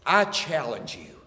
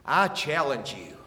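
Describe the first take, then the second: No difference in how they are said.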